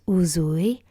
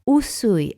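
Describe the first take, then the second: First: The middle consonant is a 'z' sound. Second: The middle consonant is an 's' sound. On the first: The speaker calls it wrong. "not Uzui" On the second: The speaker calls it right.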